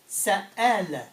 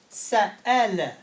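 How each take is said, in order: First: A glottal catch splits the middle of the word. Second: A glottal catch splits the middle of the word.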